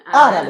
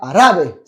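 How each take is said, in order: First: The stress falls on the first syllable. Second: The stress falls on the last syllable. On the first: The speaker calls it right. "on va pas oublier l'accent" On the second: The speaker calls it wrong. "C'est pas arabe"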